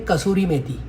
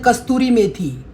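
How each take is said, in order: First: The first word has no t sound, kasuri. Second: The first word has a t sound, kasturi. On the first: The speaker calls it right. "उसका नाम है कसूरी मेथी" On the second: The speaker calls it wrong. "बहुत सारे बोलते हैं कस्तूरी मेथी"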